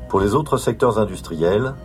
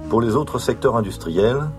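Both takes have the same delivery.

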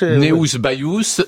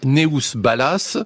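First: The surname's middle consonant sounds like Y. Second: The surname's middle consonant sounds like L. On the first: The speaker calls it right. "C'est Bayous" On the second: The speaker calls it wrong. "je prononce sûrement très mal"

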